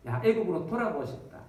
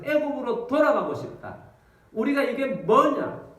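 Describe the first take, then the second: First: Said in the usual way. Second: 애굽으로 돌아가고 싶다 wailed higher and louder, 우리가 이게 뭐냐 slow; loud wailing complaint. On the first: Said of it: "울면서 이제 원망합니다". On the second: Acted. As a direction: cry out 애굽으로 돌아가고 싶다 in a loud, drawn-out lament. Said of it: "사람들이 막 엉엉 웁니다".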